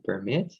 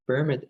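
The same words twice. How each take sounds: First: PerMIT, strong second syllable; verb-style "permit"; "permit" with weight on MIT; stress on second syllable. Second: PERmit, strong first syllable; noun-style "permit"; "permit" with weight on PER; stress on first syllable. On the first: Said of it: "the stress is on the second syllable". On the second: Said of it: "the stress is on the first syllable". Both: Shown as a demonstration.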